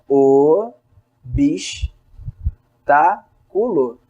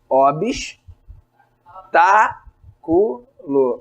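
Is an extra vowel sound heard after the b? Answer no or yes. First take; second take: yes; no. First: An extra vowel follows the b, making three parts. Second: The b joins the first syllable with no vowel. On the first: The speaker calls it wrong. "Aí um cara separou assim, ó. Que é como ele fala, normal" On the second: The speaker calls it right. "Obs. Tudo junto. B S, ó, tudo junto"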